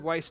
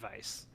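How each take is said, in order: First: The name begins with a W sound. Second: The name begins with a V sound. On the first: "I've always said Weiss too" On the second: "it actually is pronounced Weiss, like with a V"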